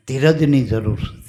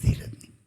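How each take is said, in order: First: ધીરજની pressed firmly at the start; stress on patience. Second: ધીરજની echoed in a breathy whisper; whispered repeat. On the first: Preacher urging his listeners to be patient, ધીરજની stressed. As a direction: lean on the word ધીરજની. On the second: Preacher echoing the word to the congregation in a whisper. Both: Shown as a demonstration.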